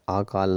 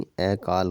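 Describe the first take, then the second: First: आकाल with a long open आ at the start; the word आकाल, first vowel drawn out long; wrong long a. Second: अकाल with a short अ at the start; the word अकाल, first vowel kept short and light; right short a. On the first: Teacher showing students the wrong form, long आ. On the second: Teacher giving students the correct form, short अ. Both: Shown as a demonstration. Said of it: "आकाल नहीं".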